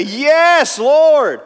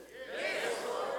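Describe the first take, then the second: First: Loud bold answer. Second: Barely breathed, unsure reply; a half-hearted whisper of faith; timid whisper. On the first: Shown as a demonstration. Preacher showing the blind men's confident cry to Jesus. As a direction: shout it high and loud. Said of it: "that's not how they said it". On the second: Acted. Congregation's weak whispered answer, corrected by the preacher. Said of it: "It's better. We'll get there".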